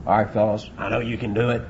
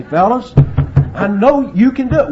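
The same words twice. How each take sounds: First: Low, subdued coach to his team. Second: High, loud rallying coach; coach's pep talk. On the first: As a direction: quietly reassure the players, little punch. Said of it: "I've listened to the coaches". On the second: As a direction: rouse a losing team at halftime. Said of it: "and you say". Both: Acted.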